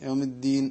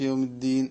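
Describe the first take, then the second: No difference in how they are said.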